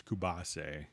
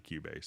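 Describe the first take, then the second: First: Cubase said as koo-BAH-say; Latin American pronunciation. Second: Said in the usual way. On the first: Shown as a demonstration. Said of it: "guys in Latin American countries". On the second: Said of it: "so instead of Cubase".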